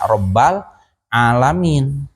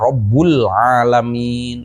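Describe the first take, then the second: First: The first word ends with an a vowel. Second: The first word ends with a u vowel. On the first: "atau dibaca Rabbal alamin" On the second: "dibaca Rabbul alamin"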